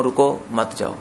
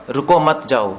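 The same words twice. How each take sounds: First: "रुको, मत जाओ" with a break after रुको; phrasing changes meaning. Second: "रुको मत जाओ" run together, no break after रुको; phrasing changes meaning. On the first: Teacher giving the second, contrasting example, pause after रुको. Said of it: "या दूसरा कहूँ". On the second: Teacher giving the first example of intonation changing meaning, run-together phrasing. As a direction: say "रुको मत जाओ" in one flow. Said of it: "सिर्फ बोलने से मतलब बदल रहा है". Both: Shown as a demonstration.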